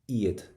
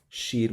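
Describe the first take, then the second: First: The word begins with a vowel sound. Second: The word begins with an s sound. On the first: The speaker calls it right. "but eid without the S" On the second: The speaker calls it wrong. "not she'd with the S"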